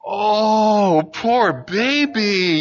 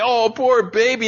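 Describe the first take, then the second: First: High, drawn-out coo of pity; a parent cooing poor baby to a hurt child; pitying baby talk. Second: High, pitying coo. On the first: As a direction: coo it at her like comforting a baby. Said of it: "you start kinda doing that thing". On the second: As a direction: coo it to her in mock sympathy. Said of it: "I can make her cry". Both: Retold or imitated.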